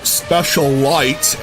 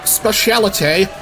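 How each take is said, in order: First: The name ends like the word 'light'. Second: The name does not end like the word 'light'. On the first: The speaker calls it wrong. "not Special Light, as some of you uh, maybe uh, inclined to pronounce it" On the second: The speaker calls it right. "there's Specialite"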